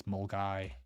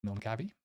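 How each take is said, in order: First: "Mulgai" in two syllables, ending like "guy"; correct local pronunciation. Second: "Mulgavi" sounded out with a V and final ee; spelling-based guess. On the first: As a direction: say "Mulgai" with no V, just "mul-guy". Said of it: "It's Mulgai". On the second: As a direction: say "Mulgavi" as a tentative reading from the spelling. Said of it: "How would you pronounce that?". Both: Shown as a demonstration.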